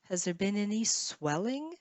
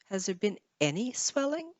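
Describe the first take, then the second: First: The stress falls on the word swelling. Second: The stress falls on the word any. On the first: "swelling or swell would be the stress last stress syllable" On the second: "Maybe you want to emphasize the word any"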